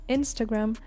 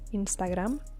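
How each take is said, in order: First: The stress is on the first syllable. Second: The stress is on the last syllable. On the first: This is how English speakers say it. "We say Instagram" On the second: This is how people in Spain say it. "So the accent falls on the last A"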